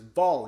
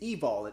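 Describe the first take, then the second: First: It starts directly with the V sound. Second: It starts with a vowel before the V. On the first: "love backwards is vol" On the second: "if you pronounce the E"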